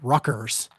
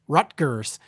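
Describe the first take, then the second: First: The middle is said with a k sound. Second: The middle is said with a t and g. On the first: The speaker calls it wrong. "they pronounce it Ruckers. R U C K E R" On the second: The speaker calls it right. "it is spelled R U T G E R S Rutgers"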